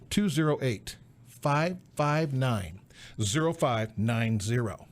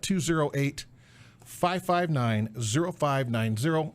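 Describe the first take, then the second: First: The number is said slowly. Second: The number is said at normal speed.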